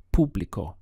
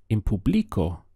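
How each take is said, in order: First: "público" with the stress on the first syllable, PÚ-bli-co; correct stress. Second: "público" misstressed on the middle syllable, pu-BLI-co; wrong stress. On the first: Teacher showing where the stress falls in "público". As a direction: lean on the U in "público". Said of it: "the accent is here over the U". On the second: Teacher demonstrating the misstressed "público" learners get wrong. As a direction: push "público" onto LI as a mistake. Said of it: "If you put it here and said". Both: Shown as a demonstration.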